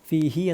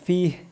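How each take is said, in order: First: The word ends with a final i vowel. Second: The word ends without a final vowel. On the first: The reciter continues without stopping. The speaker calls it wrong. "ഫീഹി എന്ന് പറയില്ല നിർത്തുകയാണെങ്കിൽ" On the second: The reciter stops on this word. The speaker calls it right. "ഫീഹ് എന്ന് പറയുള്ളൂ"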